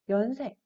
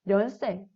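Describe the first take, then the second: First: The word begins with a vowel sound. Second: The word begins with an n sound. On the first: The speaker calls it right. "아니라 연세" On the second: The speaker calls it wrong. "이렇게 발음하는 게 아니라"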